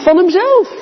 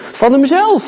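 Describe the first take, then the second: First: "hemzelf" lifted much higher, hit hard; stress on hemzelf. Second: Said in the usual way. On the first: Acted. Preacher driving home "hemzelf" to the congregation, high stress. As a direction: echo it, pitching "hemzelf" way up. Preacher repeats phrase for weight.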